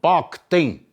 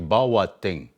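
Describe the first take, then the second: First: The name is said with two syllables. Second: The name is said with three syllables. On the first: This is how the old people said it originally. "originally, the old, old people, they'll tell you" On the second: This is how people say it nowadays. "they say a little different nowadays"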